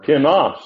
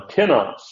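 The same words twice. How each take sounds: First: "tinos" with the accent on NOS; "tinos" said ti-NOS, ending punched higher; stress on last syllable. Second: "tinos" with the accent on TI; "tinos" said TI-nos, second syllable unstressed; stress on first syllable. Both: Shown as a demonstration. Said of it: "I put accent in a different syllable".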